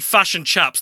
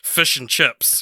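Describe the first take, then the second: First: The vowels sound like 'u', as in 'fush'. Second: The vowels sound like 'i', as in 'fish'. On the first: This mimics how others mock the accent. "if I can say fush and chups" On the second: This is how the speaker normally says it. "I'm not saying fish and chips when I say it"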